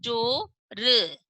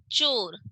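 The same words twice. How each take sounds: First: Slow, stretched teacher reading; drawn out. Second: Said in the usual way. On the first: Shown as a demonstration. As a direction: draw out each sound of चोर slowly. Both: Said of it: "च पर ओ की मात्रा लगी तो क्या बनेगा?".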